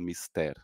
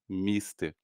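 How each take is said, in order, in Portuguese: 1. A tônica está na última sílaba. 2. A tônica está na primeira sílaba. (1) "ninguém fala mister, assim, ninguém pronuncia correto" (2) "todo mundo fala mister"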